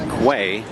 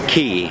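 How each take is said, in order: First: The word starts with a kw sound. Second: The word sounds just like key. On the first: This is the pronunciation the spelling suggests. "I would think that it would be Quay. That's how we would pronounce it" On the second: This is how the locals pronounce it. "they pronounce it Key"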